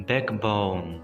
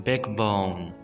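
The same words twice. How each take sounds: No difference in how they are said.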